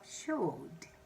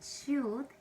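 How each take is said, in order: First: The vowel is short, standard style. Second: The vowel is long, Scottish-style.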